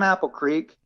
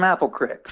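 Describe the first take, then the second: First: Creek has a long vowel, rhyming with geek. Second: Creek has a short vowel, rhyming with hick. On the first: "a geek from Apple Creek" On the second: "a hick from Apple Creek"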